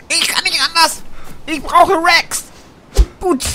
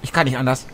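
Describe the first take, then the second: First: Much higher, louder comic squeal; mock-desperate, squeaky repeat; high put-on voice. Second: Said in the usual way. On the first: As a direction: plead it in a silly high voice.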